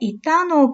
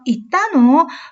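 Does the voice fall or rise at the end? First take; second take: fall; rise. First: The pitch falls at the end. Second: The pitch rises at the end. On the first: It states that someone went. "끝을 내렸죠?" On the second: It asks whether someone went. "끝을 올렸어요"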